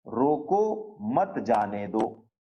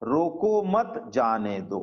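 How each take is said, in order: First: Slow रोको, pause, then मत जाने दो together; pause after रोको. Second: Slow रोको मत together, pause, जाने दो; pause after मत. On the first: (रोको के बाद विराम, फिर धीरे से मत जाने दो) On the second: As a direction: join रोको to मत, break, then जाने दो. (रोको मत के बाद विराम, फिर धीरे से जाने दो) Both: Shown as a demonstration. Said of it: "बस इसी में सारा है".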